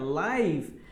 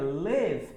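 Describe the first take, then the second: First: The vowel sounds like 'eye'. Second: The vowel sounds like a short 'ih'. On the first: Something is happening in real time. "aí é ao vivo" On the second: Someone resides somewhere. "aí você tem uma ideia de residir"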